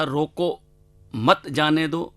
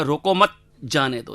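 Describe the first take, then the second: First: "रोको", pause, then a slow "मत जाने दो"; pause after रोको. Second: "रोको मत" together, pause, then "जाने दो"; pause after मत. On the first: Cartoonist shows his comic title's double meaning, pausing after "रोको". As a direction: break right after "रोको", keeping "मत जाने दो" together. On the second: Cartoonist shows the title's other meaning, pausing after "मत". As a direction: break after "मत", not after "रोको". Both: Shown as a demonstration. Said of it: "जिसका दो अर्थ हो जाते हैं".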